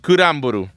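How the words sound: It is pronounced the Japanese way, as kuramboru. The speaker calls it right. "ripronuncialo bene"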